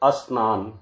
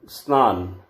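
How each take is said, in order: First: The word starts with an added short vowel. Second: The word starts directly with the consonant cluster. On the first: The speaker calls it wrong. "अशुद्ध रूप" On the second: The speaker calls it right. "शुद्ध शब्द है"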